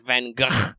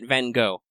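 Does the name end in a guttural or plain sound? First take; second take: guttural; plain. First: The name ends with a throaty, guttural sound. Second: The name ends with a plain English 'go' sound. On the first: "the Dutch pronunciation is more like" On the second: "in American English, you can say it"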